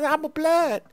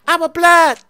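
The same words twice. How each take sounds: First: It is said at normal, softer volume. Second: It is said louder.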